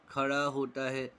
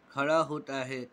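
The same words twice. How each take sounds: The two takes are said the same way.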